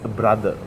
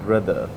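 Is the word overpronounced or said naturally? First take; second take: overpronounced; naturally. First: Every sound in the word is overpronounced. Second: The word is said smoothly and naturally. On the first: The speaker calls it wrong. "where we make go wrong is brother" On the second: The speaker calls it right. "and not brother"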